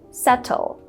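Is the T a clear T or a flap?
clear T. The T is a clear, crisp T. "in British English, people would say subtle"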